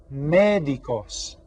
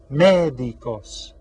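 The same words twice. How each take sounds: First: "médicos" slow, with MÉ clearly stressed; "médicos" drawn out, first syllable punched. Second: "médicos" very slow and loud, MÉ hit hard; "médicos" as a slow, loud stress model. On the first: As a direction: stretch "médicos" and lean on MÉ. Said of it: "we stress this syllable". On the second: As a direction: drag out "médicos", pounding MÉ. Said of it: "That tells us we stress this sy-, syllable". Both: Shown as a demonstration.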